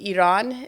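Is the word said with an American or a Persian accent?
Persian. It is said with a Persian pronunciation. "if you're speaking in Farsi, Iran is how you would actually say it"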